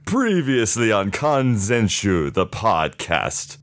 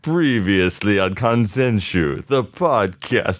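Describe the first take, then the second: First: It is said in an overacted, dramatic tone. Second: It is said in an evil tone.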